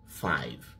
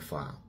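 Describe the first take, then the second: First: The final v sound is clearly pronounced. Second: The final v sound is dropped, like fa. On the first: "le mot cinq se dit five" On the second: "il n'a pas le temps de prononcer jusqu'à v"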